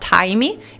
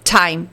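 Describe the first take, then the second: First: An extra vowel is heard after the final T. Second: The word ends on the T with no vowel. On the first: The speaker calls it wrong. "em vez de eu falar time" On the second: The speaker calls it right. "Você vai cortar esse E aí, como se ele não existisse"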